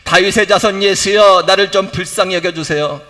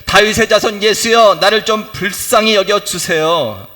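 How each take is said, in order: The two takes are said the same way.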